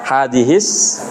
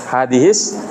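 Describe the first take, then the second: No difference in how they are said.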